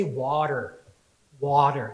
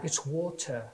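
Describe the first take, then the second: First: "water" with a flat American t and r. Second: "water" said the English way, "waw-tuh"; English-accented correction on "water"; imitated English accent. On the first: Retold or imitated. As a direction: say "water" the American way, like "wah-der". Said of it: "one of the girls in our church, she says". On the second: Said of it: "I'm not even gonna try to do an English accent".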